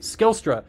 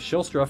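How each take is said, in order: First: The name begins with an 'sk' sound. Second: The name begins with an 'sh' sound. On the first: The speaker calls it right. "but Wes Skilstra" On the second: The speaker calls it wrong. "I was saying Shilstra for a long time"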